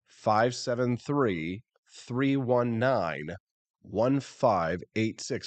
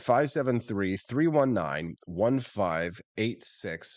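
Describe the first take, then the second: First: The number is read slowly. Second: The number is read quickly.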